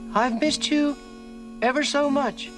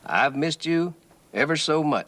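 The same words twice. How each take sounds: First: The voice is softer and higher pitched. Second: The voice is at normal loudness and pitch.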